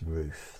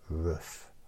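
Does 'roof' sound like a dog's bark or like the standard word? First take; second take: standard word; dog's bark. First: The word has its standard pronunciation. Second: The word sounds like a dog's bark. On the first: The speaker calls it right. "That's how it's supposed to be pronounced" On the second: The speaker calls it wrong. "or you might pronounce it roof, but it's not"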